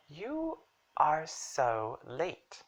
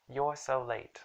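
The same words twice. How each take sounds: First: Slow, "you" and "are" split apart; "you are" as two drawn-out words; separated for emphasis. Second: Said in the usual way. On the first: Shown as a demonstration. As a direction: pause after "you", then stress "are". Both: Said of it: "we just separated for emphasis".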